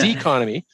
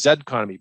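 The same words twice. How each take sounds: First: The first letter is said as 'zee'. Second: The first letter is said as 'zed'. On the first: "the Americanized uh, pronunciation of, of the last letter of the alphabet" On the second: "wouldn't work as the same as"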